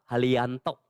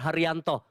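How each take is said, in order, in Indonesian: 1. Bunyi r diganti dengan bunyi l. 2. Bunyi r diucapkan dengan jelas sebagai r. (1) "gak bisa bilang R" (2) "bilang namamu yang benar"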